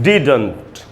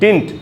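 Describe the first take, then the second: First: The middle d sound is clearly pronounced. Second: The middle d sound is dropped. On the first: The speaker calls it right. "एकदम clear बोलना है डिडंट" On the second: The speaker calls it wrong. "इसको लोग बोलते हैं डिंट"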